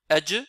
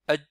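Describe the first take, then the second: First: The final consonant ends with a clear bounce. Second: The final consonant is held silent, barely heard. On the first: The speaker calls it right. "au lieu de dire adj" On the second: The speaker calls it wrong. "certains disent adj"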